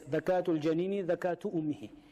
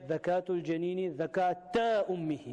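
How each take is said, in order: First: The word before ummihi ends in a u vowel. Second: The word before ummihi ends in an a vowel. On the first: Slaughtering the mother counts as slaughtering the unborn young. "they read this like this" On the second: The unborn young must be slaughtered like its mother. "not two"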